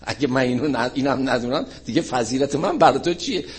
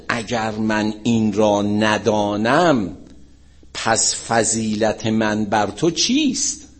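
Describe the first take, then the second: First: Said in the usual way. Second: Slow, drawn-out formal recitation; stately, stretched delivery of a holy saying; solemn quotation. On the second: Retold or imitated. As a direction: recite it word by word, weightily. Solemn quote, then casual paraphrase.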